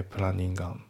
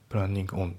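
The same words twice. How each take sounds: First: プランニングアン with planning and on run together; linked planning on. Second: プランニングオン with planning and on said apart; プランニングオン with a clear break before on; unlinked planning on. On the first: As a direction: link it as プランニングアン, no break. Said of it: "リンキングで". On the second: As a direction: keep プランニングオン as two separate words. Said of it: "じゃなくて". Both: Shown as a demonstration.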